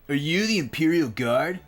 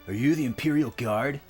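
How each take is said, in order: First: It is said in a nineties bully voice. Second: It is said in a plain reading voice.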